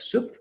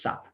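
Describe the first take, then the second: First: The vowel is long, like soup. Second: The vowel is short, like sub. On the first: The speaker calls it wrong. "Instead of soup" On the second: The speaker calls it right. "let's say sub"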